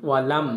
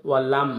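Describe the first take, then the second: The two takes are said the same way.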